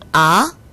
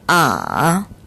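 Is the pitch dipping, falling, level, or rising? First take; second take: rising; dipping. First: The pitch climbs quickly from low to high. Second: The pitch dips very low, then rises slightly. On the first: "올라가는 성조 제이 성" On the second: "가장 낮은 음까지 내려갔다가 살짝 올려주는 복잡한 성조 제삼 성"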